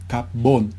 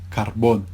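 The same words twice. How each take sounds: First: The r merges into a doubled b sound. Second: The r is pronounced before the b. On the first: This is the eastern Cuban pronunciation. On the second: This is the standard pronunciation.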